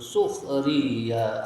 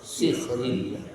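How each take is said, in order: First: The first vowel is an 'u' sound. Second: The first vowel is an 'i' sound. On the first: "bacaan sukhriya yang huruf sinnya di dibaca dhammah" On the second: "sinnya dengan kasroh, maka dibaca sikhriya"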